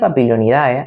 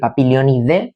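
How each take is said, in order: First: The ending is said as two vowels, a-e. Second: The ending is said as a single e vowel. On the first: "pero yo diré siempre AE" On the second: "en latín el AE se pronuncia como una E"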